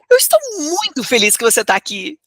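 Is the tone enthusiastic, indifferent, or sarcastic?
enthusiastic. The voice sounds lively and enthusiastic. The speaker is genuinely glad. "uma forma entusiasmada"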